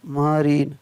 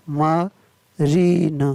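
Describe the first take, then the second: First: Said in the usual way. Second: marine stretched very slowly, syllable by syllable; teacher slows marine right down for students to copy; drawn-out model word. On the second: Shown as a demonstration. Teacher models marine very slowly for the class. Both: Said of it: "M A R I N E".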